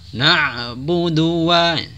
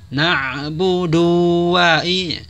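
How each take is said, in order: First: The vowel before wa is short, moving straight on. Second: The vowel before wa is drawn out long. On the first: The speaker calls it right. "Harusnya langsung menjadi" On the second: The speaker calls it wrong. "Jadi jangan"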